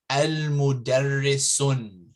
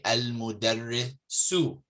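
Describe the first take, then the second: First: The word ends with an n sound. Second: The word ends on a vowel, without n. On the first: The speaker calls it wrong. "You don't say" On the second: The speaker calls it right. "You would say"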